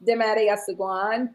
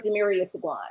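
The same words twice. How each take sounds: First: "Demaria Seguan" with a tapped, accented first name; cultural pronunciation. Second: Said in the usual way. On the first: Shown as a demonstration. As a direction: give "Demaria Seguan" its cultural sound, ending on a rise. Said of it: "How is it pronounced?". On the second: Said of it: "I pronounce it".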